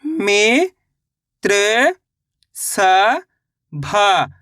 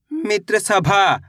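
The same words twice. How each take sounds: First: मित्र and सभा stretched very slowly; drawn-out syllables. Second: Said in the usual way. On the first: Shown as a demonstration. (धीरे-धीरे खींचकर)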